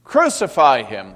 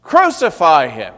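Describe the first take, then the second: First: Loud, higher shout; a loud mob shout; crowd shout. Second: Very loud, high mob shout; the crowd's loudest shout; shouting louder. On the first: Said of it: "they shouted". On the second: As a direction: scream it even louder than the crowd did. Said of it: "But they shouted all the louder". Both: Acted.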